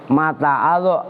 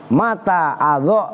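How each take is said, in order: No difference in how they are said.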